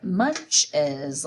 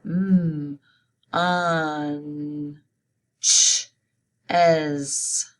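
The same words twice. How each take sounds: First: Said in the usual way. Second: "Mm, un, ch, es" sound by sound, with gaps between. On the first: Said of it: "Say it". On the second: Shown as a demonstration. Teacher spelling munches aloud, sounding out "Mm, un, ch, es" piece by piece. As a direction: stretch and separate each sound in "Mm, un, ch, es". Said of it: "Let's spell it".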